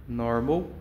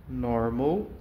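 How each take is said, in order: Both takes have the same delivery.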